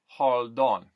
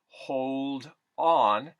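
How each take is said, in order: First: The o in hold is a plain aw. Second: The o in hold glides like oh.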